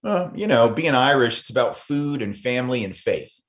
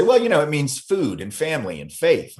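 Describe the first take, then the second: First: Irish interviewee quote. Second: Italian interviewee quote. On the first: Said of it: "I had people say to me". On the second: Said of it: "they would say". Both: Retold or imitated.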